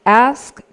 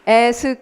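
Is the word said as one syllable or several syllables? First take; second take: one syllable; several syllables. First: The word is said as one single beat. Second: The word is broken into several syllables. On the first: The speaker calls it right. "모두 한 박자로 말하고 있어요" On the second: The speaker calls it wrong. "ask 이렇게 읽지 말고"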